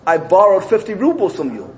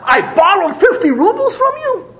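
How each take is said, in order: First: The voice is calm and at normal volume. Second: The voice is screamed, even louder. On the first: It is a plain admission. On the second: It sounds like an even stronger denial.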